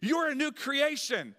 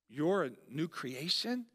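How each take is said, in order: First: It is said as a firm statement. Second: It is said as a doubtful question.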